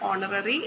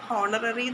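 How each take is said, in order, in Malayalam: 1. ഈ വാക്ക് സ്വരാക്ഷരത്തിൽ തുടങ്ങുന്നു, 'h' ഇല്ല. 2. ഈ വാക്ക് കേൾക്കാവുന്ന 'h' ശബ്ദത്തിൽ തുടങ്ങുന്നു. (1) "ഇതിൽ എച്ച് സൈലൻ്റ് ആയിരിക്കും" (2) "ഹോണററി എന്നല്ല പറയുന്നത്"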